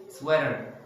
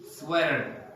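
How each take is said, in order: Both takes have the same delivery.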